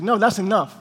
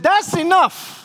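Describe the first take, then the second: First: Said in the usual way. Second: High, sharp imitation of a wife's outburst; fed-up outburst. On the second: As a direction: put your foot down, pitched way up. Fed-up wife puts foot down.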